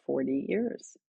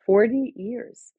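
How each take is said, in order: First: Said in the usual way. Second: "Forty years" slow, higher and louder; emphatic repeat. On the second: Real, not acted. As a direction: stretch out "Forty years" in amazement, pitched up.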